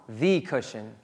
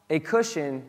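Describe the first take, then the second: First: "the" said as a weighted "thee"; stress on THE. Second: Said in the usual way. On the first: Shown as a demonstration. Correcting what the congregation assumed about the detail, stress "the" as "thee". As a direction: lean on "the", saying it "thee". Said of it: "he's not just saying he was asleep on". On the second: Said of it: "he's not just saying".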